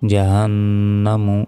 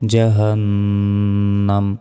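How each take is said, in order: First: The word ends with a short 'u' vowel. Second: The word ends on the 'm' consonant. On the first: The reading continues without stopping. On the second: The reader stops at this word.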